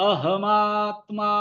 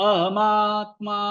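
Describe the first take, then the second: The two takes are said the same way.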